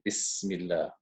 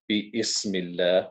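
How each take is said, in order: First: The parts run straight together as one word. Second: The first part is split off with a break. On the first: The speaker calls it right. "we say ... We have to read straight through" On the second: The speaker calls it wrong. "As we don't say"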